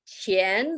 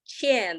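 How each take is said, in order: First: The pitch rises from middle to high. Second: The pitch falls sharply from high to low. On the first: It means money. "the second tone" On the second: It means owe. "the fourth tone"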